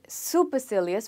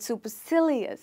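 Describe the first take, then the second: First: The stress falls on a syllable other than sil. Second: The stress falls on the syllable sil. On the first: The speaker calls it wrong. "We do not call it supercilious" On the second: The speaker calls it right. "we stress this word over sil"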